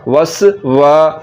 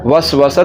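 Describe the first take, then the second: First: The vowel after the w is held long. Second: The vowel after the w is cut short. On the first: The speaker calls it right. "यहाँ पर हम वाव को लंबा करेंगे" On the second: The speaker calls it wrong. "हम यहाँ पर ज़बर को लंबा नहीं कर रहे"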